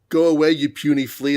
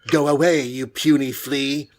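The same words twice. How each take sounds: First: It is said in a plain, ordinary voice. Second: It is said in Namor's stilted, accented voice.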